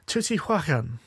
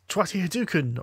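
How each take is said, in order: First: The name ends sounding like 'huacan'. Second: The name ends sounding like 'hadouken'. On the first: The speaker calls it right. "or as it should be said" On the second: The speaker calls it wrong. "So one game we've kind of played but not played is"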